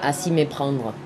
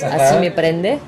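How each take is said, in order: First: The title is said with a French pronunciation. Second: The title is said with a Spanish pronunciation. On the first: This is the original French form of the title. "en francés sería" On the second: This is how many people call the song. "de hecho le dicen así muchos"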